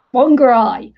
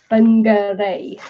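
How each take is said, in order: First: "Wongarai" louder, w start and eye ending; local Kiwi pronunciation. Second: "Whangarei" drawn out slowly, f at the start; Maori pronunciation. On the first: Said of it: "local Kiwis, um, call it". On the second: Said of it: "the Maori pronunciation is". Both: Shown as a demonstration.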